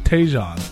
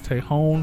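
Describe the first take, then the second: First: The middle consonant is a J sound. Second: The middle consonant is an H sound. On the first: The speaker calls it wrong. "it looks like it's called Taejon" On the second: The speaker calls it right. "but it's Taehyung"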